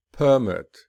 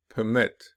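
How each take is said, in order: First: "Permit" with a high, loud first syllable, falling; stress on first syllable. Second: "permit" with light start, stressed second syllable. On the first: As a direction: noun form, punch the start of "Permit". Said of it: "the noun will be". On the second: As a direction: verb form, lean on the end of "permit". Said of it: "whereas the verb will be". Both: Shown as a demonstration.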